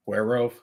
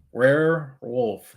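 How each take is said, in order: First: "Werewolf" slurred to "wer-oaf", the R's smeared and the L dropped; fumbled R's. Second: "Werewolf" said slowly as "wer-wulf", every R and the L sounded; careful correction. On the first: Real, not acted. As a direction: say "Werewolf" as a garbled "werr-oaf". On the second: Shown as a demonstration. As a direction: stretch "Werewolf" out carefully, syllable by syllable. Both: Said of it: "I can't say my R's all the time".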